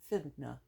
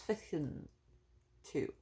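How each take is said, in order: First: Both words merge into one word, finna. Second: It is said as two full words, fixin to.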